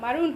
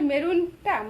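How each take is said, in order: First: It is said with an English-style pronunciation. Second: It is said with a Bengali-style pronunciation. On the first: The speaker calls it wrong. "এক্সেন্ট UK বা US এর এক্সেন্টে" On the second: The speaker calls it right. "মেরুনকে মেরুনই বলতে হবে"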